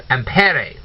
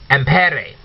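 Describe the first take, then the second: The two takes are said the same way.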